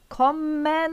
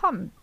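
First: The m sound is held long and pressed. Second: The m sound is short and not held. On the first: This is a Hungarian-style reading of the spelling. The speaker calls it wrong. "jól megnyomva ezt az ember" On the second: This is how German speakers actually say it. The speaker calls it right. "hanem azt mondja"

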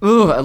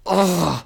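First: It sounds loud and exasperated. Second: It sounds small and held back.

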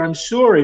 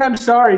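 First: The apology sounds serious and heartfelt. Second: The apology sounds insincere and offhand. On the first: The apology is genuinely meant. The speaker calls it right. "Now that sounds serious" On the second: The apology is not really meant. The speaker calls it wrong. "sounds so insincere"

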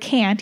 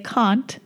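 First: It is said with an American vowel. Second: It is said with a British vowel. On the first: The speaker calls it wrong. "you can't say the word can't" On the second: The speaker calls it right. "You have to say can't"

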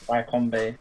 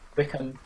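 First: The first syllable sounds like "why". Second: The first syllable sounds like "wick". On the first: The speaker calls it wrong. "not Wycombe" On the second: The speaker calls it right. "I meant Wickham"

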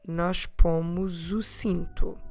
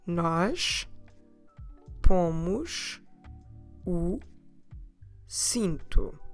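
First: The words run together; the s sounds like z. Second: The words are said slowly, one by one. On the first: The speaker calls it right. "we will run it together and it will sound more like a Z sound" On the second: The speaker calls it wrong. "I will say it again slowly, devagar, word by word"

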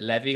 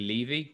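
First: It is pronounced like the tax word levy. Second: It is pronounced unlike the tax word levy. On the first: The speaker calls it wrong. "Normally people pronounce it Levy, like a tax levy" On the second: The speaker calls it right. "but it's actually Levy"

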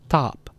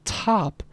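First: The t has no puff of breath after it. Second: The t has a puff of breath after it.

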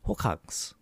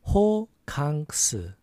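First: The word is said fast. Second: The word is said slowly.

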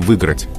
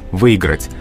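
First: The 'i' after 'vy' is dropped entirely. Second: A 'y' glide is heard after 'vy'. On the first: This is allowed only in fast casual speech. "в беглой речи не возбраняется говорить" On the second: This is the preferred pronunciation. "То есть «йод» звучит, не пишется, но звучит"

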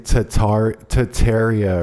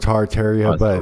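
First: The word is said without an R sound. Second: The word is said with an R sound. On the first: The speaker calls it wrong. "some people say Tartaria or something like that with no R" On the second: The speaker calls it right. "there's an R in it"

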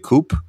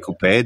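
First: Coupe is pronounced differently from the Norwegian way. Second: Coupe is pronounced the way Norwegians say it. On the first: "They don't say coupe" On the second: "in Norway they say coupe"

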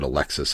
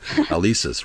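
First: The middle consonant is a 'ks' sound. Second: The middle consonant is a plain 's' sound. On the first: The speaker calls it wrong. "I pronounced it wrong. I said Alexis" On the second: The speaker calls it right. "but Alesis, right"

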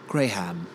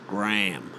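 First: It is said in an English accent. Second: It is said in an American accent.

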